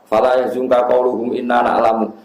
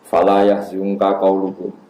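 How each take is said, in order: First: It runs on after qauluhum without a pause. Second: There is a pause after qauluhum. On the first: The following words seem to be the unbelievers' speech. The speaker calls it wrong. "Kalau kamu wasolkan" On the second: The following words are God's own speech. The speaker calls it right. "Itu menurut orang-orang alim itu harusnya wakaf"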